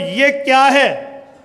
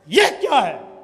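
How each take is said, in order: First: It is asked as a plain neutral question. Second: It is said in an angry tone.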